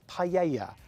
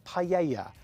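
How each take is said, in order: First: It is said with a Spanish-style pronunciation. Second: It is said with a Spanish-style pronunciation.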